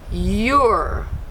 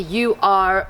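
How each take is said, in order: First: It is said as one contracted syllable. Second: It is said as two full separate words. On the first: The speaker calls it right. "we say you're" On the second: The speaker calls it wrong. "we don't say you are"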